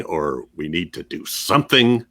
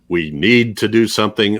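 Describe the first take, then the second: First: Something pushed at the end; stress on SOMETHING. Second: NEED hit hard, the rest light; stress on NEED. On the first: Co-host testing the title's emphasis, stress on something. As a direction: land the weight on something. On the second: Co-host testing the title's emphasis, stress on need. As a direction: lean on the word need. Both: Shown as a demonstration. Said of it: "where the emphasis goes".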